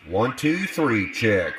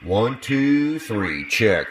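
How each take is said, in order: First: The voice echoes as if in a hall. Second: The voice sounds muddy with heavy bass. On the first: "Let's make it into a hall" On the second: "We'll get it muddy"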